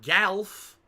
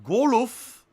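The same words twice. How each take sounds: First: "golf" as "galf", front "a"; rejected "golf" pronunciation. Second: "golf" as "goo-luff", two syllables; rejected "golf" pronunciation. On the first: Streamer showing viewers a wrong version, exaggerated "galf". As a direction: stretch "golf" high and loud into "galf". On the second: Streamer showing viewers another wrong version, exaggerated "goh-luff". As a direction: stretch "golf" high and loud into "goh-luff". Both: Shown as a demonstration. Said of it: "It's not golf".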